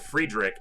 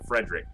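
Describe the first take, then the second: First: The name is said with a European-style pronunciation. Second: The name is said with an American-style pronunciation. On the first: "Friedrich is probably correct" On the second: "the more Western common pronunciation. American pronunciation"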